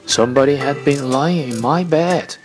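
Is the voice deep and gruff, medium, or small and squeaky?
deep gruff. It is a deep, rough, gruff voice.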